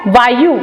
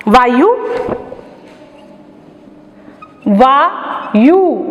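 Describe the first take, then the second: First: वायु with a short final u, vaayu; clipped वायु ending in short u; correct pronunciation. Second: वायु said with a long uu, vaayoo; drawn-out वायु with a long final u; wrong pronunciation. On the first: Teacher gives pupils the right short u in वायु. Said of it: "अर्थात य पर छोटे ऊ की मात्रा।". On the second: Teacher shows pupils the wrong long vowel in वायु. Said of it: "ये गलत है।". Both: Shown as a demonstration.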